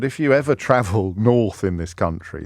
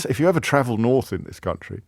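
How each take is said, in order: First: Said in the usual way. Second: Quicker, lightly mocking repeat of own phrase; mocking self-quote. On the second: Presenter quotes his own London-centric phrase back, mocking self-quote. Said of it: "How London".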